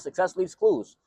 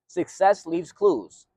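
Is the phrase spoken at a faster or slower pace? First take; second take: faster; slower. First: The phrase is spoken at a quicker pace. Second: The phrase is spoken at a slower pace.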